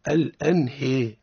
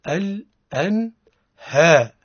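First: The vowel after h drifts down toward i. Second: The vowel after h is a full open a. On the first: The speaker calls it wrong. "ليس الأنهاء" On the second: The speaker calls it right. "الصواب هو الأنهاء"

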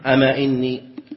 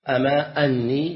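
First: The second word begins with an 'i' vowel. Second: The second word begins with an 'a' vowel. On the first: The first word is an opening particle meaning 'indeed'. "فإذا وقعت إن بعدها كسرت" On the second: The first word is a question meaning 'is it true that'. "وعلى هذا فتفتح همزة أن بعدها"

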